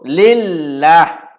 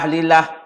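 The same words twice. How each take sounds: First: The l sound is held and doubled. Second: The l sound is short and single. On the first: The speaker calls it right. "yang sebenarnya kita sebut lillah. Kena ada sabdu pada huruf lam" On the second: The speaker calls it wrong. "tak boleh kita baca"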